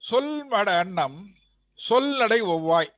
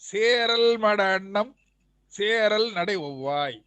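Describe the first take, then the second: First: The first word is 'sol' with a short vowel. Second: The first word is 'seral' with a long vowel. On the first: The speaker calls it wrong. "சொல் நான் வேண்டுமென்றே படித்தேன்" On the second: The speaker calls it right. "நெடில் சேர் படிக்கணும்... ரா என்று படிக்கணும்"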